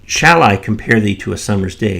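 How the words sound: The stress falls on the word shall. The speaker wonders whether to compare at all. "If you put the emphasis on that first shall"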